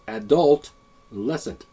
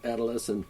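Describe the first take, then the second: First: The word starts with the sound 'adult'. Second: The word starts with the plain sound 'ado'.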